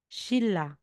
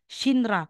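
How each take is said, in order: First: The middle consonants sound like a double l. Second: The middle consonants sound like n followed by r. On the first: The speaker calls it right. "magiging Shilla" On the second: The speaker calls it wrong. "aside na sasabihin mong Shinra"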